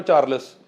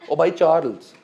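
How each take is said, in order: First: Said in the usual way. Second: चार्ल्स said as "Charels" with the l and e swapped; mock the wrong चार्ल्स, "Char-els"; mispronounced name. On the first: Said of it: "Diana के खसम का क्या नाम है?". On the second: Shown as a demonstration. Trainer mocks a trainee's wrong चार्ल्स as "Char-els". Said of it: "pronunciations do matter".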